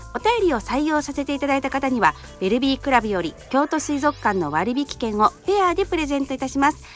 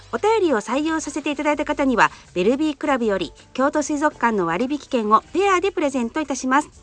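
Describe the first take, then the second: Both takes have the same delivery.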